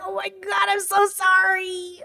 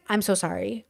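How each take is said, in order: First: High, drawn-out apology; high-pitched re-enacted apology; gushing apology. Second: Soft, low apology; hushed re-enacted sorry; sheepish apology. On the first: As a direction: squeak out a long, stretched sorry. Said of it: "I was like". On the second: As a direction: apologize under your breath. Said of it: "And I was like".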